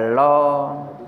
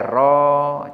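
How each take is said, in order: First: It begins with an l sound. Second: It begins with an r sound. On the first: The speaker calls it wrong. "jangan dibaca lo" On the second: The speaker calls it right. "Ya ro dibaca ro"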